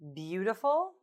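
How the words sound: The pitch rises at the end.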